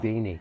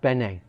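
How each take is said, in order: First: The first vowel sounds like 'ee'. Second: The first vowel sounds like 'eh'. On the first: "insisted on pronouncing Beanie" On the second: "a player called Bene"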